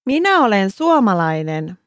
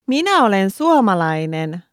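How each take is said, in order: Both takes have the same delivery.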